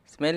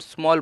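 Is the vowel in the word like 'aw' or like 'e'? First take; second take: like e; like aw. First: The vowel sounds like 'e' in 'bed'. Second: The vowel sounds like 'aw' in 'saw'. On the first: The speaker calls it wrong. "हम हम ये तो नहीं बोल रहे कि स मेल स्मेल नहीं बोल रहे" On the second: The speaker calls it right. "हम स्मॉल बोल रहे हैं। इसलिए जो ए है इसमें इसकी आवाज़ ओ की निकल रही है"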